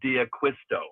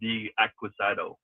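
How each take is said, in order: First: The name ends with the sound 'sto'. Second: The name ends with the sound 'sado'. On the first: The speaker calls it right. "and John D'Acquisto" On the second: The speaker calls it wrong. "not D'Acquisado"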